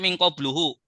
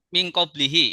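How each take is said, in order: First: The vowel after 'qabl' is u. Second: The vowel after 'qabl' is i. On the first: The speaker calls it wrong. "Tidak dibaca min qabluhu" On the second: The speaker calls it right. "Kalau kita sebutkan min qablihi ya, perhatikan"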